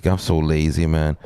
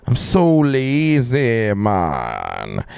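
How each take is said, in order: First: Said in the usual way. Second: Drawn-out whine. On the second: Pretend. Streamer moaning about being lazy, drawn-out falling whine. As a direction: stretch SO LAZY high, then sink on MAN. Drawn-out repeat of plain remark.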